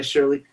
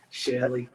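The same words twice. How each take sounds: First: Said in the usual way. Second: Shirley r-less as "SHELL-ee", Massachusetts style; Massachusetts accent. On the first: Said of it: "Oh, yeah". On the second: Shown as a demonstration. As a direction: give Shirley the local Massachusetts vowel. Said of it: "is it Shirley?".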